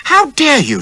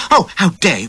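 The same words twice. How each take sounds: First: Shrill high shocked cry, loud; squealing outrage. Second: High, loud repeated outrage; outraged squeal. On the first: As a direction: squeal it like a startled lady. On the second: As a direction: keep squealing in horror. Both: A narrator's reading. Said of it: "she squealed".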